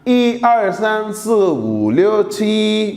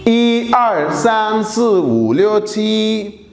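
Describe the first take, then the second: The two takes are said the same way.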